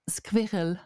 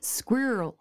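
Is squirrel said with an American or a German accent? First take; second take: German; American. First: The word is said with a German accent. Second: The word is said with an American accent. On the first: "I heard a German speaker say the word squirrel recently" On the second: "It becomes a kind of a monophthong"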